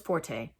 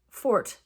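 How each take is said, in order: First: The word ends in an 'ay' vowel. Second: The word ends in a 't' sound. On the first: The speaker calls it wrong. "Everybody says forte, and that is not the pronunciation" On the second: The speaker calls it right. "The pronunciation is fort"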